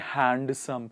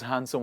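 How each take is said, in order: First: The D sound is pronounced. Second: The D sound is silent. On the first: The speaker calls it wrong. "Handsome would be wrong" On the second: The speaker calls it right. "Words with the silent D"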